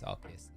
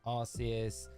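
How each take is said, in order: First: The name begins with a hard 'ark' sound. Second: The name begins with a soft 'arse' sound. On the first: The speaker calls it right. "it's Arceus" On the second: The speaker calls it wrong. "You do know you're saying it wrong"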